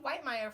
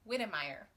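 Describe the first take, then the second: First: The first syllable has a long 'eye' vowel. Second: The first syllable has a short 'i' vowel. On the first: The speaker calls it wrong. "I've also been saying Whitemeyer" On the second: The speaker calls it right. "her name is pronounced Whittemeyer"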